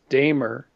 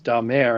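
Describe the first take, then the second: First: The name is pronounced in an English way. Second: The name is pronounced in a French way. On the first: "the Eng- Anglified version is Damer" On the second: "the Frank- Frankish version is Damer"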